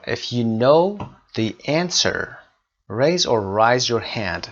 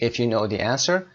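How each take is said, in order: First: Slow, deliberate classroom reading; slow dictation. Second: Said in the usual way. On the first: Shown as a demonstration. Teacher reading the exercise sentence slowly to students. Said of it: "teacher reads exercise slowly".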